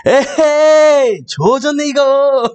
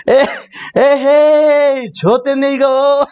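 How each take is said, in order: First: The right take: stretch "에헤이" and say "조졌네"; mother's dismay, corrected. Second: The wrong take: stretch "에헤이" and say "좆됐네"; mother's dismay, misquoted. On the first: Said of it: "내가 왜곡했다". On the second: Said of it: "맞아, 맞아". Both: Retold or imitated.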